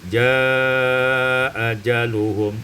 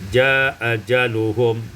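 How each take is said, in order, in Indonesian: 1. Vokal panjang dibaca dengan panjang sedang. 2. Vokal panjang dibaca sebentar. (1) "dengan tawasud" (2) "beserta qasar"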